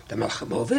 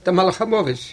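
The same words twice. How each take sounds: First: Hushed, much lower and softer, scared; frightened echo. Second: Said in the usual way. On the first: Acted. The listener repeats the angel's words, frightened and hushed. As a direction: breathe the name back in dread. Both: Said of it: "ער איז שוין דערשראקן".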